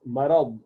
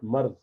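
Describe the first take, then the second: First: Marad said with a clear Arabic d; correct marad. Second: Marz said with a z sound, the Urdu way; the mistaken marz, with z; wrong marz. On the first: Teacher correcting pronunciation of a word. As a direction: say marad, not marz. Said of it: "not marz". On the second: Teacher showing the wrong pronunciation. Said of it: "it's marad, not marz". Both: Shown as a demonstration.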